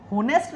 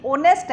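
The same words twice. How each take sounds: First: "होनेस्ट" with a sounded h, ho-nest; wrong pronunciation. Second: "ऑनेस्ट" with a silent h, starting on an o sound; correct pronunciation. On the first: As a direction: say "होनेस्ट" starting on a clear h. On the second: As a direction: say "ऑनेस्ट" as o-nest with no h. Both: Shown as a demonstration. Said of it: "याद रखना ये होनेस्ट नहीं है".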